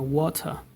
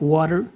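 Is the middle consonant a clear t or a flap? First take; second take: clear t; flap. First: The middle t is a clear t. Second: The middle t is a quick flap. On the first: "very different sound" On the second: "this is called flapping"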